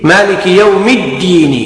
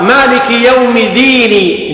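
First: Slow, doubled held D in الدين; shadda on the dal. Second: Single D in ديني; slow, with undoubled D in ديني; missing shadda. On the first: Teacher gives the required reading, الدين with shadda. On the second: Teacher shows an invalid recitation, ديني without shadda. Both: Shown as a demonstration. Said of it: "لا بد من التشديد".

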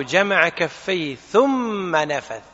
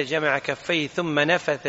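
First: ثم drawn out long to mark a delay; slow phrase, stretching ثم into a clear gap before نفث; stress on ثم. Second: Said in the usual way. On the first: Shown as a demonstration. Teacher showing students the interval before blowing, stress on a long ثم. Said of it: "معناته في مهلة بين جمع الكفين". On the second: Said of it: "ظن بعض الناس أن النفث يكون قبل القراءة".

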